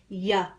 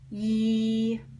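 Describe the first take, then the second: First: The Y sound ends with an added 'uh' vowel. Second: The Y sound has no added 'uh' vowel. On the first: The speaker calls it wrong. "there's that schwa" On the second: The speaker calls it right. "I would attest that it goes like this"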